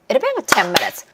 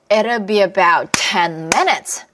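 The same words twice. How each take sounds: First: The sentence is spoken at a faster pace. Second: The sentence is spoken at a slower pace.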